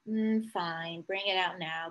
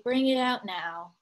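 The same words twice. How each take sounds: First: Soft, deflated mm, fine; resigned sigh. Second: Slowed, giving-in bring it out now; slow reluctant. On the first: Retold or imitated. Peter gives up waiting for Amy, soft and resigned. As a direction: give in quietly with a sigh. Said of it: "he said". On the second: Acted. Peter gives in to his mother, slow and reluctant. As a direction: drag it out, giving up on waiting. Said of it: "said Peter slowly".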